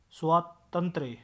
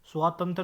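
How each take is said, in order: First: स्वातंत्र split, ending in 'trye'; correct pronunciation. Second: स्वातंत्र ending in bare 'tra'; wrong pronunciation. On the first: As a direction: pause after स्वा, end स्वातंत्र on य. (स्वातंत्र का सही रूप, अंत में य) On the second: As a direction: say स्वातंत्र without final य. (स्वातंत्र, य के बिना) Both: Shown as a demonstration. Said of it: "स्वातंत्र नहीं".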